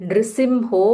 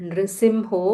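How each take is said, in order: The two takes are said the same way.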